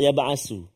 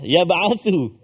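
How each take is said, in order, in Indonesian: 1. Konsonan tengah adalah bunyi s yang mendesis. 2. Konsonan tengah adalah bunyi th yang lembut. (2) "kan tha"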